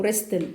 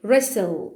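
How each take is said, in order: First: "wrestle" said as "RESS-tel", with a T; "wrestle" with an audible T, W still silent; T sounded. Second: "wrestle" said as "RESS-ul", no T; "wrestle" starting on R, middle just an S; silent T. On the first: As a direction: say "wrestle" pronouncing the T after the S. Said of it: "ما يجي لنا التي". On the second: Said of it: "المفروض إن أنا أقولها لك wrestle". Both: Shown as a demonstration.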